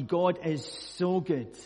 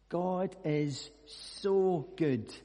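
First: Said in the usual way. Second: "God is so good" said very slowly, leaning on "so"; slow reflective echo. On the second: Shown as a demonstration. Preacher echoing the verse slowly to the congregation. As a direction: let "so" hang in "God is so good".

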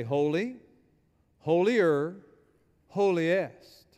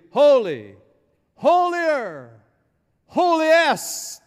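First: Said in the usual way. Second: Loud and building, climbing much higher on each word; angels' escalating proclamation. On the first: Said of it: "There's no way in Hebrew to say". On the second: Acted. Preacher voices angels as if in English, rising exultant shout. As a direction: proclaim it big, pitch soaring to the last word. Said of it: "what the angels are saying, if they spoke English".

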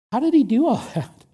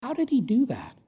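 First: Voiced astonishment with a chuckle; amazed laugh. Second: Soft, breathy whisper of wonder; whispered amazement at a son's loyalty; awed whisper. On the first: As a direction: laugh in disbelief mid-question. Preacher repeats with a laugh. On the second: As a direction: hush it like a secret marvel. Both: Real, not acted.

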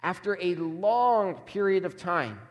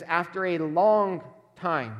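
First: "long" stretched and slowed; "After a long period of time", with "long" drawn out; stress on long. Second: "long" stretched out slowly; "After a long time", with "long" slow and weighty; stress on long. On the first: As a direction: linger on "long" to show how much time passed. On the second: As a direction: lean hard on "long", drawing it out. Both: Shown as a demonstration. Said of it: "There's emphasis on that length of time".

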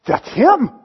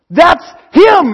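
First: Said in the usual way. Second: Higher and louder, bursting with it; excited recognition. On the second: Acted. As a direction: point him out with rising joy. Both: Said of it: "John goes".

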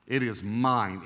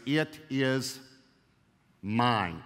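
First: Said in the usual way. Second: "It is" then a long pause before a falling, weighty "mine"; emphatic it is mine. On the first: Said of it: "how emphatic". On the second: Shown as a demonstration. Pastor stressing the Hebrew to his congregation, emphatic pause. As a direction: hold the gap, then land "mine" hard. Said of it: "It's extremely emphatic".

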